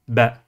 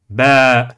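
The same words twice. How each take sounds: First: The vowel is short. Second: The vowel is long. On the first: The speaker calls it wrong. "et non pas ba" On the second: The speaker calls it right. "le prolongement de la voyelle a. Nous dirons donc"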